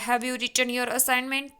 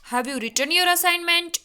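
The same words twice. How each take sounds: First: It is read flatly, without a question tune. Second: It is said with a clear question intonation. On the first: The listener cannot tell a question is being asked. The speaker calls it wrong. "तो हम ऐसे read करेंगे, ... तो कुछ पता नहीं चलेगा कि हम क्या बोल रहे हैं" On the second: The listener knows a question is being asked. The speaker calls it right. "Interrogative sentence है उसको बोलने का तरीका भी अलग होता है"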